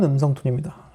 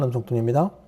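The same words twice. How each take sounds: First: The voice has a fuller, richer tone. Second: The voice has a normal, unaltered tone. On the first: "지금은 풍부한 음성 톤입니다" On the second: "일반 음성 톤입니다"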